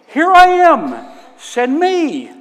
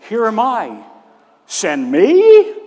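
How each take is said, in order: First: It is said as an eager, willing offer. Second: It is said as a reluctant, doubtful question.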